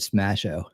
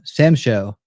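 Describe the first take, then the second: First: It is said as one word, 'Smasho'. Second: It is said as two parts, 'Sam Show'. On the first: "I said Smasho" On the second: "I'm saying uh, Sam Show"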